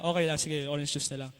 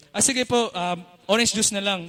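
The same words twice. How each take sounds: First: Softer, lower, deflated settling; softly giving in to the cashier; resigned. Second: Said in the usual way. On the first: Retold or imitated. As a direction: give up and take the orange juice quietly. Settling after no ice.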